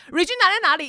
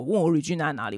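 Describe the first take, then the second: First: High, fast, pestering grandma voice; imitating an anxious grandma pressing for an answer; nagging grandma. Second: Said in the usual way. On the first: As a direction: rattle it off like a worried grandma who won't stop asking. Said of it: "阿嬷就是不停的". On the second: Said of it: "她就是说：“Regina在哪里？".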